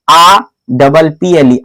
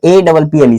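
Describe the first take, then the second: First: Letter आ said as a long open "aa", spelt slowly: आ double P L E; wrong spelling-out. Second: Letter ए said as "ay": ए double P L E; correct spelling-out. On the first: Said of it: "तो ऐसे थोड़े पढ़ोगे". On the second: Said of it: "आप बोलोगे". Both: Shown as a demonstration.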